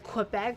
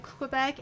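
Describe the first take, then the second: First: "Quebec" said as kwih-BECK; anglicised "Quebec", with the w sounded; English pronunciation. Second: "Quebec" said as keh-BECK; "Quebec" without any w sound; French-style pronunciation. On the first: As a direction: say "Quebec" with a kw at the start. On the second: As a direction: say "Quebec" with a plain k, no w. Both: Shown as a demonstration. Corrects how the name is said.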